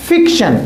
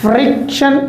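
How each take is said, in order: First: फिक्शन with a plain f and no r, falling; fiction without r. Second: फ्रिक्शन with a clear fr cluster, rising; friction with the r. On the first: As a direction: drop the r: फिक्शन. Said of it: "इसमें बोल रहे हैं". (फिक्शन बिना 'र' के) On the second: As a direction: stress the r in फ्रिक्शन. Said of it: "इसमें बोल रहे थे". (फ्रिक्शन में 'र' साफ़ बोलें) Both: Shown as a demonstration.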